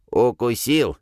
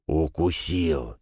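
First: Stressed "укусил", hoarse and pointed; emphatic hoarse. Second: Said in the usual way. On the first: Acted. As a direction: hammer home "укусил". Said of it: "хрипло".

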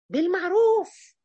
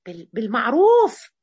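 First: بالمعروف stretched slowly, pitch lifted; بالمعروف said slow and rising, like coaxing; drawn out high. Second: بالمعروف restarted, then hit louder and slow; بالمعروف said louder and slow, insisting; firm and loud. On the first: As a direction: draw out بالمعروف gently and high. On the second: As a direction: land بالمعروف with a firm push. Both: Shown as a demonstration.

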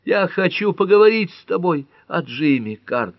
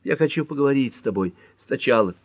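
First: High, loud despairing plea; desperate cry. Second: Higher-pitched, plaintive insistence; plead, with a touch of a moan; moaned plea. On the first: Pat begs Cart to talk about Jimmy, desperate cry. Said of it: "в отчаянии крикнула Пэт". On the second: Woman begs her lover to talk first, moaning. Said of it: "простонала Пэт". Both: A narrator's reading.

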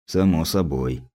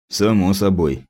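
First: Softer, lower, drifting off; detached, fading. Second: Absent, distant agreement; detached. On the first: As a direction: repeat it quietly to yourself, lost in thought. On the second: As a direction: say it like your mind is elsewhere. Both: A narrator's reading. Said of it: "как-то отрешённо кивнул опер".

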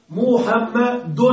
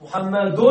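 First: محمد very slowly, split as "mu-ham-ma-dun"; slow sounding-out. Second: محمد with a clear "-dun" at the end; tanween ending. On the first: Teacher making students hear the tanween, sounded out slowly. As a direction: stretch each syllable of محمد, landing on a clear n. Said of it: "ماذا تسمع؟". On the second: Teacher showing what tanween is, final "-un" sounded. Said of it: "أصله هكذا". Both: Shown as a demonstration.

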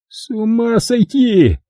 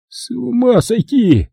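First: High, slow, drawn-out groan of despair; Kelly repeats his groan; groaning again. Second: High, slow, drawn-out groan of despair; Kelly groans at the absurd robbery. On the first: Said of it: "повторил Келли". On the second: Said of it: "простонал Келли". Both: Acted. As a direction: moan it, exasperated.

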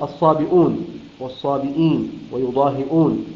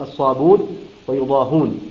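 First: Said in the usual way. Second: الصابون and يضاهون with the hamza deleted, ṣābūn, yuḍāhūn; hamza dropped. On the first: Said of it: "قرأها بحذف الهمزة". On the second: Shown as a demonstration. Teacher contrasts Qalun's reading with the hamza form. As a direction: slide straight to the long u in الصابون. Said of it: "أي يقرأه بالضم".

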